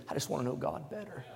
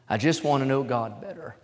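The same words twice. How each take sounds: First: Much softer, barely voiced quote; soft, like a tearful young man; quietly recalling a teary young man's words; hushed retelling. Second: Said in the usual way. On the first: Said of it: "He said". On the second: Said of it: "I wrote down a new statement".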